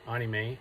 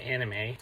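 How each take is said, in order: First: The word is pronounced in Japanese style. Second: The word is pronounced in English style. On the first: "I pronounce it the way the Japanese do" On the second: "as opposed to"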